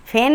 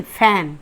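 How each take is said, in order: First: फैन said the mistaken way; wrong version. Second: फैन said the right way; correct version. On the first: Teacher shows students the wrong फैन. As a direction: give the wrong reading of फैन. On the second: Teacher gives students the correct फैन. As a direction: give the right reading of फैन. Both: Shown as a demonstration. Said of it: "फैन नहीं".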